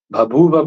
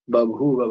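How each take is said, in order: First: भभूव with two aspirated भ sounds, bhabhuva; aspirated first sound. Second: बभूव opening on plain ब, then aspirated भू; deaspirated first sound. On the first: Teacher shows students the unchanged form, aspirated first sound. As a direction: say भभूव slowly, aspirating the opening consonant. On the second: Teacher shows students the changed form, deaspirated first sound. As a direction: say बभूव slowly as babhuva, no puff on the first consonant. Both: Shown as a demonstration. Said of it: "भभूव को बभूव बना देता है".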